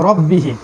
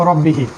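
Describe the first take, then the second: The two takes are said the same way.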